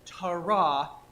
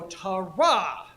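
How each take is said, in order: First: The stress is on the first syllable. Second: The stress is on the last syllable. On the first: The speaker calls it wrong. "there's a desire here to want to go Tara" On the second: The speaker calls it right. "you really want to go Tara... You put the emphasis on the back, the last syllable"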